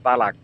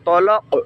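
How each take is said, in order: First: The t and k are light and plain. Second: The t and k are heavy and deep. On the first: The speaker calls it wrong. "তা এবং মধ্যখান পেছানো কাফ" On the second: The speaker calls it right. "তোয়া আর কফ, কফ কলকলা"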